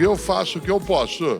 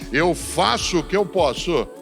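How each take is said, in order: First: It trails off in a resigned, giving-up way. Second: It ends firmly, like an emphatic exclamation.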